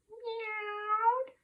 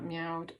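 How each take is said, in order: First: High, drawn-out "meowed"; meowing like a cat. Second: Said in the usual way. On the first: Shown as a demonstration. Teacher re-reading for children, meowing like a cat. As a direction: say "meowed" as a high cat's meow. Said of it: "in a meowing and purring sort of way".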